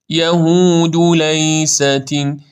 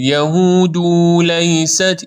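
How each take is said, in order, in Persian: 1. صدای u بعد از د کوتاه است. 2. صدای u بعد از د کشیده است. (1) "یعنی سریع زمه رو رد میکنیم" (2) "این اشتباست"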